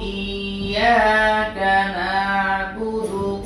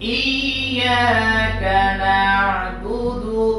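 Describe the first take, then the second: First: The ain sound is said lightly and naturally. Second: The ain sound is squeezed and pressed hard. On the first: The speaker calls it right. "যেটা সঠিক উচ্চারণ সেটা আমি দ্বিতীয়বার বলতেছি" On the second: The speaker calls it wrong. "আমি প্রথমে চাপানোটা বলতেছি"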